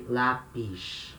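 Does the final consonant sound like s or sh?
sh. The final s sounds like sh.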